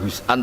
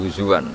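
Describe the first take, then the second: First: The middle of the word has a glottal stop. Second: The middle of the word has a w sound. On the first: "bukan hus'an" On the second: "tapi huzuan"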